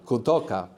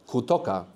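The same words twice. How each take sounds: The two takes are said the same way.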